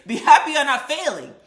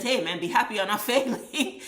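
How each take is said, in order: First: Much higher and louder, yelled out; shouting. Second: Teasing with a laugh breaking through; laughing tease. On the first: Telling the C student to be grateful, shouted at the top of the voice. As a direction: yell it straight at the C student. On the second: Teasing the C student, laughing as the word failing comes. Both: Real, not acted.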